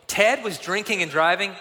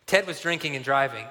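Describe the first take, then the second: First: Shocked, rising question; alarmed disbelief. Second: Said in the usual way. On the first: Retold or imitated. Leader hearing the boy's report, alarmed and incredulous. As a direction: echo it back, aghast. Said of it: "noticeably alarmed".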